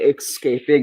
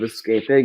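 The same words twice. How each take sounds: First: The word begins with an 'ex' sound. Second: The word begins with an 'es' sound. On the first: The speaker calls it wrong. "when people say escaping instead of escaping, it gets on my nerves" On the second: The speaker calls it right. "you pronounce it escaping because there's no X in escaping"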